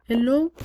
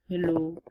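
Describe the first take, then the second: First: "hello" high and louder with a rise. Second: "hello" low and soft. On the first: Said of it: "in a high pitched voice". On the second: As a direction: drop "hello" down low and quiet. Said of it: "hello in a low voice". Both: Shown as a demonstration.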